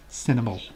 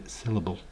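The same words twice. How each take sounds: First: Syllable said as sinnable, with an n in place of the l; a fumbled sinnable for Syllable; mispronounced. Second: Syllable said carefully as sil-a-ble, with a clear l; a careful, corrected syllable. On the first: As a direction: trip on Syllable so it comes out sinnable. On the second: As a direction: get Syllable right this time, sil-a-ble. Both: Shown as a demonstration. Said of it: "Can't even say that word right".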